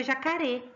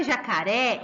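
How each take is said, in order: First: Jacaré wrongly ending in a closed "ê"; quick jacaré with the accent's open sound removed; closed final vowel. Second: Jacaré ending in an open "é"; jacaré with a clear open, stressed "ré"; open final vowel. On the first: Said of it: "senão ficaria jacaré". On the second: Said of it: "Ele abre a palavra". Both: Shown as a demonstration.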